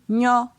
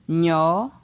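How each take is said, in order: First: The syllable is said on a high tone. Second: The syllable is said on a mid tone. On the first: "Ton haut" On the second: "Ton moyen"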